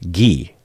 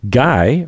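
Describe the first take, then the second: First: The name is said like French 'ghee'. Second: The name is said like English 'guy'.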